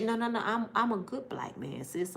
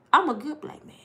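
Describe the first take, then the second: First: Quiet reassurance. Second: Firmer claim. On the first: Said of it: "quiet reassuring". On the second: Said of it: "louder repeat". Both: Shown as a demonstration.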